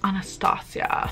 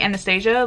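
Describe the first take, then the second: First: The name is pronounced unlike the movie title. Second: The name is pronounced like the movie title. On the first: The speaker calls it right. "and apparently it's Anastasia" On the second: The speaker calls it wrong. "I've been saying Anastasia, like the fucking movie"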